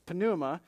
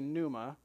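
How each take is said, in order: First: The initial P sound is pronounced. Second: The initial P sound is silent. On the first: The speaker calls it right. "but you pronounce the P sound anyway. But it's pneuma" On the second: The speaker calls it wrong. "some people say pneuma"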